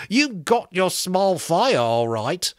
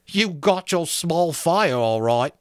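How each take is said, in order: First: Slow, sour sarcasm; sour joke. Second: Sour sarcasm again. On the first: Piggy to the boys, sourly sarcastic. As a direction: sneer the joke out slowly. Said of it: "the sour joke". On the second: Repeated, slower sarcastic line. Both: A narrator's reading.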